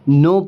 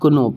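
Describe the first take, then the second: First: The word begins directly with the n sound. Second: A k sound is heard before the n. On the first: The speaker calls it right. "तो यहाँ पे भी हम नो पढ़ेंगे" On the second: The speaker calls it wrong. "ना कि इसे कोनो पढ़ेंगे"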